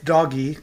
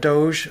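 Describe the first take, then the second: First: The G is pronounced hard, like in go. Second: The G is pronounced soft, like J. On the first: The speaker calls it right. "because G has a G sound" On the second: The speaker calls it wrong. "I refuse to call it Doge"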